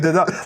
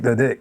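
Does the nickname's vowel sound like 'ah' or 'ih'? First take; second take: ah; ih. First: The vowel in the nickname sounds like 'ah'. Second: The vowel in the nickname sounds like 'ih'. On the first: This is how locals say the town's nickname. The speaker calls it right. "We say the doc" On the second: This is not how locals say the town's nickname. The speaker calls it wrong. "we don't say the dick"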